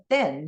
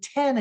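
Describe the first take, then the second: First: Spanish "ten", tongue on the teeth for T; Spanish pronunciation. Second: "ten" in English, with a puffed T; English "ten", aspirated at the start; English pronunciation. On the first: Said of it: "look very similar in English and Spanish". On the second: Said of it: "the word ten in English". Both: Shown as a demonstration.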